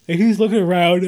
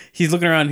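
First: Talking through a yawn. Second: Said in the usual way. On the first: Real, not acted. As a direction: say it mid-yawn, stretched out. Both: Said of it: "Oh, I'm yawning".

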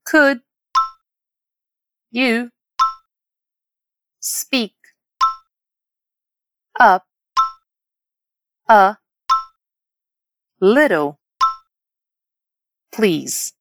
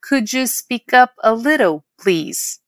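First: "Could", "you", "speak", "up", "a", "little", "please" each separated; word by word. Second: Slow, connected "Could you speak up a little", dropping on "please"; whole model phrase. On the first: Teacher practising pronunciation with learners, word by word. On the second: Teacher modelling a request for volume, slow and connected. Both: Shown as a demonstration. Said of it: "Vamos praticar essa pronúncia?".

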